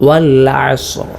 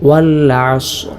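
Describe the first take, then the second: No difference in how they are said.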